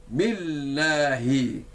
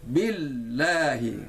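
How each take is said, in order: Both takes have the same delivery.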